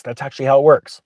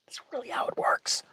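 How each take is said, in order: First: Said in the usual way. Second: Whispered, secretive repeat of works. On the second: Shown as a demonstration. Insider letting viewers in on the secret, whispered.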